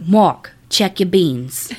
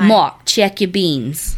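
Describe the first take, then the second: First: Slow, drawn-out New Orleans mama voice, lightly done; a hint of a Southern mama calling her son at night; thick New Orleans accent. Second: Put-on slow, drawn-out repeat of the mama's call with a thick New Orleans accent; lightly voiced Southern mama. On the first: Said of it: "he heard his mama go". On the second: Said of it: "You do sound".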